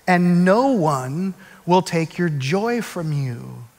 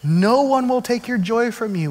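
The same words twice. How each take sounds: First: Slow, soft and deliberate; slow quiet reading. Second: One lifted high, then falling; stress on one. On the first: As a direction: read it slowly as scripture. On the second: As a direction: lean on one. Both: Shown as a demonstration.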